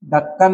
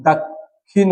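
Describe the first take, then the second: First: ढक्कन as "dakkan", no aspiration; plain "kk" and "a" in ढक्कन; wrong middle sound. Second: दक्षिण said "dak-khin", in two parts; aspirated kkh. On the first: Teacher showing a wrong form, "dakkan" for ढक्कन. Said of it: "नहीं". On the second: Teacher correcting the form, slow "dak-khin" for दक्षिण. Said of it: "होगा". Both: Shown as a demonstration.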